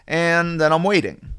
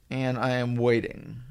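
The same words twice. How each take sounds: First: Slow, stretched-out "waiting" at normal volume; drawn-out waiting. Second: Slow and soft, spelling out "I am waiting"; weary waiting. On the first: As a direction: begin the wait, stretching "waiting". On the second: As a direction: let "I am waiting" sag, worn down by the wait. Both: Retold or imitated. Acting out a long wait.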